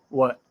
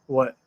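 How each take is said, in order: Both takes have the same delivery.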